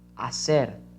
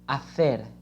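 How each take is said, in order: First: The c is said without the tongue at the teeth. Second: The c is said with the tongue at the teeth. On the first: "how how can we say in Mexico" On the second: "This word in Spain is pronounced hacer, hacer, with the tongue behind your front teeth"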